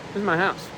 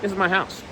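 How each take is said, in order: Both takes have the same delivery.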